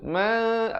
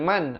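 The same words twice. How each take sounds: First: The n is a long nasal hum. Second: The n is cut short with no hum. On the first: The speaker calls it right. "ikhfa dua harakat di situ" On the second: The speaker calls it wrong. "bukan man"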